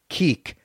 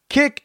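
First: The word has a long vowel, like 'keek'. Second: The word has a short vowel, like 'kick'. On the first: The speaker calls it wrong. "and not keek to me" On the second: The speaker calls it right. "it's forever K-I-K"

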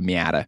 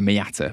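First: The word is said in an American accent. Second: The word is said in a British accent. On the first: The speaker calls it right. "You were just saying an American pronunciation" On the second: The speaker calls it wrong. "which sounds horrible in a British accent"

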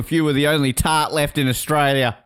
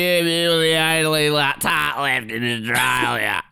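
First: It is said in a plain, normal accent. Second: It is said in an exaggerated Australian accent.

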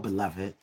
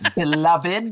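First: The word sounds warm and heartfelt. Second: The word sounds mocking and dismissive. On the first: The listener is addressed with real affection. "But when you say it from the heart" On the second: The listener is being called a fool. "That means fool. You need to sit down"

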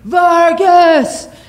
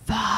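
First: The word is screamed loudly. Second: The word is whispered softly.

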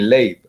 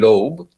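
First: The name is said the Israeli way. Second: The name is said the American way. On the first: This is how people in another country say the name. "I was born in Israel, and they call me Leib" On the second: This is how people in one country say the name. "in the US, they call me Loeb"

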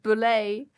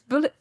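First: The word ends in a 'lay' sound, like ballet. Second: The word ends in a short 'lit' sound. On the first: The speaker calls it wrong. "I was reading it like it was pronounced the same as ballet" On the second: The speaker calls it right. "but it's bullet"

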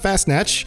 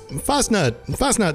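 First: The word sounds like 'fast snatch'. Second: The word sounds like 'fastnut'. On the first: The speaker calls it wrong. "It's not Fast Snatch, which sounds kind of dirty" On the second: The speaker calls it right. "It's Fastnut time, which actually means donut"

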